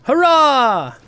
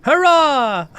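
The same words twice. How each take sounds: First: High, loud little Hobbit cheer; squeaky Hobbit shout of joy. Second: High, loud little Hobbit cheer. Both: Retold or imitated. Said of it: "It sounded a lot like a Hobbit voice".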